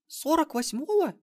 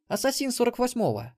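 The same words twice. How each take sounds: First: Put-on very high, slow girlish squeak; squeaked question. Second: High, matter-of-fact female boast; boastful assassin woman. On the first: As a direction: squeak it slowly in disbelief. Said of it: "пискнула внучка". (изумлённый протяжный писк внучки) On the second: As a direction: state your level proudly in a high voice. Мелисса boasts of her level. (высоким женским голосом, хвастливое утверждение) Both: A narrator's reading.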